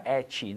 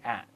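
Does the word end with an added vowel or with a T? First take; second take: added vowel; T. First: An extra 'ee' vowel follows the final T. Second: The word ends cleanly on the T sound. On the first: The speaker calls it wrong. "Nunca at, nunca colocar um sonzinho de I no final" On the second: The speaker calls it right. "sempre at"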